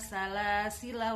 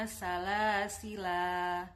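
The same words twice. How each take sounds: First: The word ends with a short final vowel. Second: The word ends with a long final vowel. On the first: The reading continues without stopping. "Kalau wasol dibaca pendek" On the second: The reading stops at this word. "bisa dibaca panjang ketika wakof"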